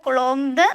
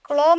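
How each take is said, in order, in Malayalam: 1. ഈ വാക്ക് കേൾക്കാവുന്ന b ശബ്ദത്തോടെയാണ് അവസാനിക്കുന്നത്. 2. ഈ വാക്ക് b ശബ്ദമില്ലാതെയാണ് അവസാനിക്കുന്നത്. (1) "കുളോംബ് പറയാറില്ല" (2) "കുളോം എന്നാണ് പറയാ, ... ബി സൈലന്റ് ആണ്"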